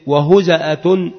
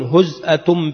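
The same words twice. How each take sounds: First: وهزأة with a short a after the z, "wa-huza'atun"; vowelled zay. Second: هزأة with no vowel after the z, "huz'atun"; sukun on the zay. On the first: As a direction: say وهزأة as "huza'a", opening the middle syllable. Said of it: "بالتحريك". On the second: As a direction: say هزأة as "huz'a", z closed onto the hamza. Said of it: "بالتسكين". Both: Shown as a demonstration.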